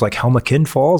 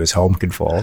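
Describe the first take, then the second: First: The name is said with an extra vowel sound. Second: The name is said without the extra vowel sound. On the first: "The British add an extra E" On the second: "proper North American pronunciation"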